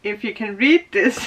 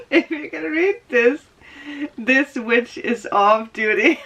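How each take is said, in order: First: Said in the usual way. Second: Laughing read-out. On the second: Shown as a demonstration. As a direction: relish the joke as you read it. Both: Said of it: "reads sock text twice".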